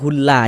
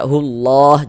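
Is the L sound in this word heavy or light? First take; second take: light; heavy. First: The L sound is light and thin. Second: The L sound is heavy and thick. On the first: The speaker calls it wrong. "jangan dibaca hulla" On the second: The speaker calls it right. "dibaca tebal"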